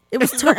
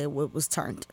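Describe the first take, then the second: First: Turned said higher and louder; stress on turned. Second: Said in the usual way. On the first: Shown as a demonstration. Repeating the slang word for the podcast hosts, punching turned. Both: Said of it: "With a T".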